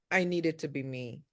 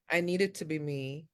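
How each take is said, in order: Both takes have the same delivery.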